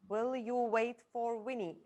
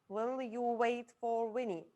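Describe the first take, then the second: No difference in how they are said.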